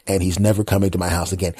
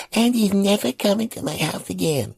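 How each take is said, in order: First: Said in the usual way. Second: Put-on very high child's echo; little kid voice. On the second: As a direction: parrot it like a small boy. Nephew repeating.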